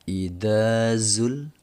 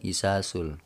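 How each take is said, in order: First: The consonant after the first vowel is 'dh'. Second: The consonant after the first vowel is 's'. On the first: The speaker calls it right. "beda ya antara da dengan za" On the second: The speaker calls it wrong. "Ada juga yang bilang isasul. Wah, itu udah parah banget itu"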